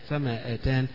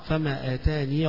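First: The word ends with a bare n sound. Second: The word ends with a long ee vowel.

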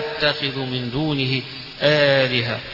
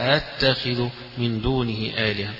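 First: The second glottal stop is softened, with no vowel between. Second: A long vowel comes before the softened second glottal stop. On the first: "يبقى الأولى همزة الثانية همزة مخففة" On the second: "همزة ممدودة وبعدها تسهيل الهمزة الثانية"

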